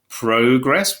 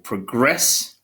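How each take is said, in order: First: The stress is on the first syllable. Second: The stress is on the second syllable. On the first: It is used as a noun. "with the stress here at the beginning" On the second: It is used as a verb. "with the stress on the second syllable"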